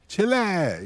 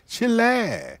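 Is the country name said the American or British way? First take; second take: American; American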